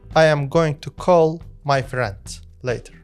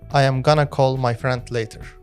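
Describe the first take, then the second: First: Going to is said in full, carefully. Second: Going to is reduced to gonna, connected.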